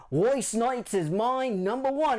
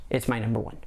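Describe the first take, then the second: First: Higher, slower put-on Australian accent; "my number one" stretched out in a hammy Australian accent; terrible Australian accent. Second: Said in the usual way. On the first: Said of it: "sorry again for the terrible Australian accent". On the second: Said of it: "I'm sorry again for the terrible Australian accent".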